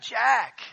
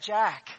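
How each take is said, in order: First: The name is called out quite loudly. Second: The name is called at a moderate volume. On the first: "So I sort of call out quite loudly" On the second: "so I call out to him and say"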